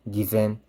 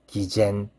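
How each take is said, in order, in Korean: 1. 두 번째 음절에는 한국어 쟤 같은 소리가 없어요. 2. 두 번째 음절에는 한국어 쟤 같은 소리가 있어요. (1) "맞고요" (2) "아니에요"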